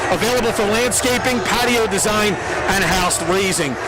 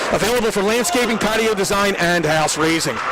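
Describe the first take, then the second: No difference in how they are said.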